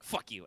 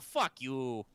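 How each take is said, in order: First: It is said harshly and aggressively. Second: It is said in a warm, friendly way. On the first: It is a real insult. "a harsh like" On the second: It is playful teasing between friends. "a friendly"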